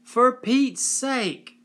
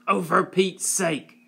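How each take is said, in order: First: Slow, much higher, louder angry cry; angry yell. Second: Higher, louder spat retort. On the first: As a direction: yell it in exasperation. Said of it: "she yelled at them". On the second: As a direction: spit the words out in contempt. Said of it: "his aunt spat". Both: A narrator's reading.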